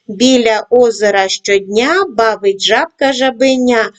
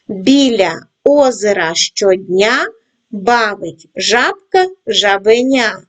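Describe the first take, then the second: First: It is read at a moderate pace. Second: It is read at a slow pace. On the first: "кожного разу пришвидшуємо темп" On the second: "починаємо працювати із скоромовкою в повільному темпі"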